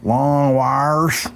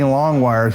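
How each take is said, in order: First: It is said in a Southern accent. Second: It is said in a neutral accent.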